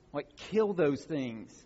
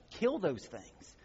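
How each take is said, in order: First: "kill" stressed, words drawn out slowly; slow down and hit "kill" hard; slow emphatic. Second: "Kill" punched, phrase slowed right down; slow emphatic repeat. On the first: Preacher urging listeners to fight sin, slow and emphatic. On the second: Preacher repeating the command, slower and weighted. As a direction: repeat it slowly, hammering "Kill". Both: Shown as a demonstration. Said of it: "It's called mortification of the flesh".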